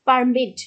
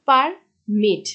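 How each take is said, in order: First: permit with পার hit loud; stress on first syllable. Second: permit split, with মিট stressed; stress on second syllable. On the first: Teacher showing the noun form, stressed পার in permit. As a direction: punch পার, let মিট sit in permit. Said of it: "পারের উপরে যে একটু pressure দেওয়া হচ্ছে". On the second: Teacher showing the verb form, stressed মিট in permit. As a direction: separate পার, then press মিট in permit. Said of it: "মিটের উপর pressure দিচ্ছে". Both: Shown as a demonstration.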